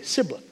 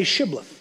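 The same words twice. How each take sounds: First: Sibboleth with "s" in place of "sh"; mispronounced Sibboleth. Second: Shibboleth with an opening "sh" sound; correct Shibboleth. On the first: Ephraimite failing the test, Sibboleth with an "s" for "sh". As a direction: open Sibboleth on a plain "s" sound. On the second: Men of Gilead testing an Ephraimite, Shibboleth with a clear "sh". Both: Acted. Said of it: "he could not pronounce it right".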